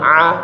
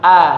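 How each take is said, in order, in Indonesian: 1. Vokal 'a' dimulai dengan bunyi tenggorokan yang tegang. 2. Vokal 'a' diucapkan biasa dan terbuka. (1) "jangan jadi ain juga depan, jangan a" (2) "tapi a coba"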